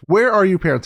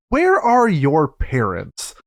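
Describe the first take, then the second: First: Said in the usual way. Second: Drawn-out, word-by-word mock exasperation; exasperated question. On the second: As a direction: ask it very slowly, stressing each word. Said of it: "where it's like".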